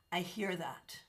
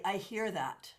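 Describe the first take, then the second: First: Softly whispered I hear that; hushed, sympathetic echo; whispered sympathy. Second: Said in the usual way. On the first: Acted. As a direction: breathe it out as a whisper of empathy. Repeating sympathy to a viewer.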